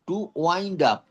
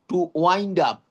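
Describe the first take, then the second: The two takes are said the same way.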